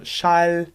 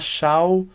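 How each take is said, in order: First: The final L sounds German-style. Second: The final L sounds Portuguese-style. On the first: The speaker calls it right. "eu vou falar Schal" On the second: The speaker calls it wrong. "Eu não vou falar Schal"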